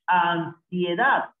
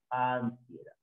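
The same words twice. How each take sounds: First: "Ansiedad" drawn out very slowly, opening vowel stretched; palabra alargada. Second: Said in the usual way. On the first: Shown as a demonstration. Teacher models a diphthong word. ("Ansiedad" muy lento, alargando las vocales)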